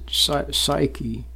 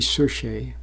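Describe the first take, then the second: First: The word is pronounced as psyche. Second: The word is pronounced as psuche. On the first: The speaker calls it wrong. "Some people pronounce it psyche" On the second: The speaker calls it right. "but actually it should be psuche"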